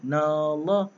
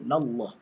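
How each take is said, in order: First: The 'na' vowel is drawn out long. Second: The 'na' vowel is kept short. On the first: The speaker calls it wrong. "na tu jadi panjang" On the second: The speaker calls it right. "So jangan panjang"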